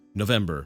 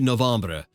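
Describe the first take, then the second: First: The name is pronounced the English way. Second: The name is pronounced the French way.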